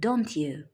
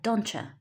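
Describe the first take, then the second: First: 'Don't you' is said in full. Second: 'Don't you' is reduced to 'don'tcha'. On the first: "instead of don't you" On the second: "we have don'tcha"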